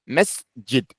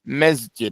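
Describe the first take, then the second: First: A clear s is finished before the j. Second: The s blurs into a z before j. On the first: The speaker calls it right. "Nah, mesjid. Make the scene clearly" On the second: The speaker calls it wrong. "Don't say mez, mesjid"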